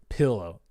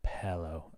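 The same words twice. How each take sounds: First: The first vowel sounds like 'ih'. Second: The first vowel sounds like 'eh'. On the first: The speaker calls it wrong. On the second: The speaker calls it right. "pillow with an with an E"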